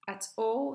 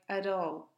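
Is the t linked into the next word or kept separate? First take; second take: separate; linked. First: The two words are said separately. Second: The t links straight into the following vowel.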